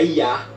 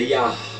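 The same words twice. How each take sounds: First: The word ends without any breathy final sound. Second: The word ends with an audible breathy h sound. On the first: The speaker calls it wrong. "não é Yah apenas" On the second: The speaker calls it right. "é Yah. Você tem que dar uma ênfase no, no R fraco no final"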